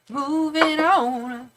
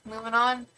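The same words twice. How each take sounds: First: Moving on, each word long and lingering; sing-song drawl on Moving on; slow drawn-out. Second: Said in the usual way. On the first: Shown as a demonstration. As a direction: stretch out Moving on very slowly. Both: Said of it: "repeats it drawn out".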